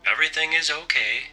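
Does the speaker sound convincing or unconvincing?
convincing. The voice sounds more confident and convincing. The speaker calls it right.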